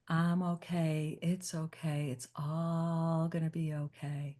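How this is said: It is said in a soft lullaby voice.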